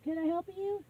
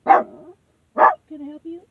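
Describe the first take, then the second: First: Said in the usual way. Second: Drawn out, much louder, rising; loud and slow. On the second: Real, not acted. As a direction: call it out slowly and loudly. Stranger at the door, repeated.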